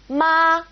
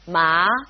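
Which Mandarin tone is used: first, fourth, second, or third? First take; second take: first; second. First: It is said with the first tone. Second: It is said with the second tone. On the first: "We've got our first tone" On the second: "second tone"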